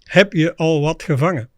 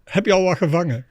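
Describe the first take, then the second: First: It is said slowly. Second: It is said at normal speed.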